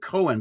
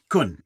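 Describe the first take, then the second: First: The name is said like the English name Cohen. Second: The name is said with a Dutch vowel sound. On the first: The speaker calls it wrong. "I'm saying it wrong" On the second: The speaker calls it right. "it's good enough"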